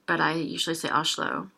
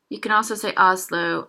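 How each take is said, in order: First: Oslo with a sh sound before the l, like Ashlo; usual pronunciation. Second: Oslo with an open a-like first vowel, like Aslo; alternative pronunciation. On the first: Teacher showing a learner how she usually says Oslo. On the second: Teacher showing a learner a second way to say Oslo. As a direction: say Oslo with the first o opened toward a. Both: Shown as a demonstration.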